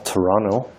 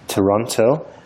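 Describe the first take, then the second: First: The name is said the Canadian local way. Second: The name is said in a British way.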